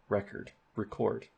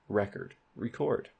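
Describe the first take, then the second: The two takes are said the same way.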